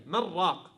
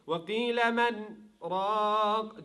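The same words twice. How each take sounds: First: من راق run together as "mar-raq"; no gap in من راق, said "marraq"; merged idgham. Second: Slow chant, clear n in من, breathless gap before راق; chanted, recite من, halt briefly, then hold راق long; chanted, melodic tajweed with من and راق kept apart; chanted recitation with sect. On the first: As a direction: swallow the n of من into a doubled r of راق. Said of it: "Usually, what will you apply here?". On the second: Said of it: "apply the sect between the noon and the ra". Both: Shown as a demonstration.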